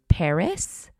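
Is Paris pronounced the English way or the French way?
English. It is pronounced with an English accent. "instead of Paris"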